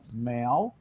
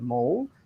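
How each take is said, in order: First: It is pronounced the Victorian way. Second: It is pronounced the usual non-Victorian way. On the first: "In Victoria, they say things like mal" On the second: "instead of maul"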